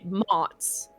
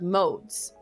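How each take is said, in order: First: The vowel is a short 'o' as in 'cod'. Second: The vowel is a long 'o' as in 'code'. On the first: The speaker calls it wrong. "I kept pronouncing it mods" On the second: The speaker calls it right. "I couldn't pronounce the word modes"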